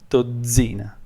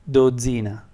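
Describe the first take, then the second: The two takes are said the same way.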